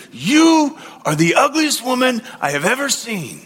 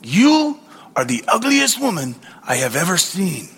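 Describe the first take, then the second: First: Hammed-up parrot squawking the insult; shouting parrot. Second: A lightly voiced parrot, matter-of-fact; hint of a squawky bird delivering an insult. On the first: Parrot shouts its insult on the third day, hammed-up. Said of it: "again the parrot looked at her and said". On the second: Parrot insults a passing woman, lightly voiced. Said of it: "a parrot looked at her ... and said".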